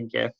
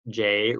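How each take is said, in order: First: The word begins with a hard G sound. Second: The word begins with a soft J sound.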